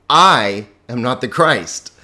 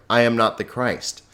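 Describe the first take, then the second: First: I stressed and said louder; emphatic I. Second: Said in the usual way. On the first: Shown as a demonstration. Teacher showing the emphatic ego as stress on I. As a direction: lean hard on I in I am not the Christ. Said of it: "But it's ego". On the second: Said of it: "Very clear".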